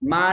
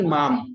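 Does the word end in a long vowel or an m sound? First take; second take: long vowel; m sound. First: The word ends in a long nasal vowel. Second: The word ends with a clear m sound. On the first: The speaker calls it wrong. "मां नहीं" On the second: The speaker calls it right. "माम मतलब मुझे"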